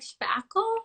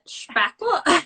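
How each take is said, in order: First: It is said in her normal accent. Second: It is said with a German accent.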